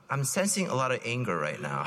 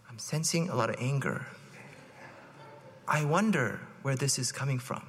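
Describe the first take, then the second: First: Calm therapist voice. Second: Low, softer calm counselor tone; calm, soothing. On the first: Retold or imitated. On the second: Shown as a demonstration. Husband calmly answering his angry wife, soothing. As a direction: soothe like a therapist, unruffled. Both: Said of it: "say it in a nice, calm voice".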